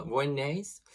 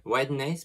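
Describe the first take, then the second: First: "whiteness" said like vwanness, with a v and no t; mispronounced word. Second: "Whiteness" fixed with an English w, said like wadness; corrected pronunciation. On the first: "whiteness" misread as vwanness, before she corrects herself. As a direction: botch "whiteness" into a French-sounding vwanness. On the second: "Whiteness" restated with an English w after her slip. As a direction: correct yourself, "Whiteness" with a clear w. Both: Real, not acted.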